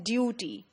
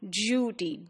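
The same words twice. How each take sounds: First: The vowel is a plain 'oo' sound. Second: The vowel has a 'y' glide before it. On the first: "Americans pronounce it as you. So they would pronounce it as duty" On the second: "Whereas the British would pronounce it as du"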